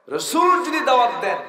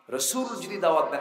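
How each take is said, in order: First: রাসূল pushed high and loud; insistent, soaring emphasis on রাসূল; emphatic repeat. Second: Said in the usual way. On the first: Retold or imitated. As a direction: hit রাসূল hard at a much higher pitch.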